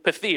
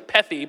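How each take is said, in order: First: The stress is on the second syllable. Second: The stress is on the first syllable. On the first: The speaker calls it right. "the emphasis is almost always on the second syllable" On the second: The speaker calls it wrong. "So I want to say pethi"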